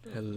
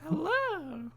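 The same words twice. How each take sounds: First: The voice is pitched lower. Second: The voice is pitched higher.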